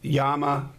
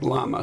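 First: The name is said with a Spanish pronunciation. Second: The name is said with an English pronunciation. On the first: This is how other people say the name. "some people pronounce it Llama, but I'm not Spanish" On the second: This is how the spelling reads to the speaker. "to me it looks like Llama"

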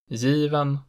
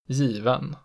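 First: Pitch rises to a single peak after the stressed vowel. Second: Pitch falls on stressed vowel, then peaks again after. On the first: "it has a single pitch peak in accent 1" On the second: "a double peak in accent 2"

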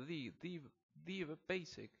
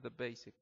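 First: 'The' has a full, stressed 'ee' vowel. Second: 'The' has a quick, weak neutral vowel. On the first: "Ahí ese the se puede pronunciar como the basic. Estás como queriendo explicar a alguien, resaltando que es lo básico" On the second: "por lo general se pronuncia the basic. Rápido"

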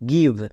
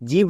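First: The word begins with a hard g sound. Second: The word begins with a j sound. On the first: The speaker calls it right. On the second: The speaker calls it wrong. "জিভ না"

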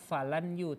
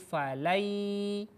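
First: The n is pronounced clearly before the y. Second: The n merges into a nasalized y. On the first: The speaker calls it wrong. "Jadi tidak dibaca falan yu" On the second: The speaker calls it right. "huruf nun menjadi hilang, diganti dengan huruf ya"

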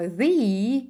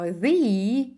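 First: It is the form used before vowel sounds. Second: The same.

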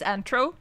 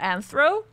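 First: The middle consonant is a plain 't' sound. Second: The middle consonant is a 'th' sound. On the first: "in my head it's like always Antro, because German" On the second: "Did he pronounce it Anthro? Probably that's probably how you pronounce it"

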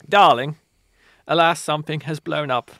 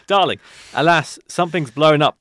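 First: It is read in a put-on posh accent. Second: It is read in the reader's ordinary accent. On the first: "Do a posh accent" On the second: "Can't do it"

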